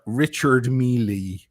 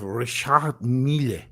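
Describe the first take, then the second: First: The name is given a common anglicized pronunciation. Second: The name is given its French-style pronunciation. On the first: This is how most people say the brand. The speaker calls it wrong. "everybody go, goes" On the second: This is the correct way to say the brand. The speaker calls it right. "instead of"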